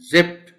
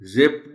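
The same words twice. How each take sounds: First: The word ends with a t sound. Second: The word ends with a d sound. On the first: The speaker calls it right. "So flow में when you pronounce the word as जिप्ड तो फिर आखिर में टी की आवाज पैदा होगी" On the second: The speaker calls it wrong. "डी की आवाज निकालना इस वर्ड में बहुत मुश्किल है, उसके लिए फिर आपको कहना पड़ेगा जिप्ड, लेकिन ऐसे तो बोला नहीं जा सकता"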